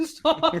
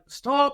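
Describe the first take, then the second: First: Imitated laughing shout. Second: Higher-pitched mock command to halt; imitated instructor shout. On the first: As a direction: mimic an instructor trying to shout while laughing. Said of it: "he's laughing at the same time". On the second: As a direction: call it out like an instructor. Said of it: "when they shout".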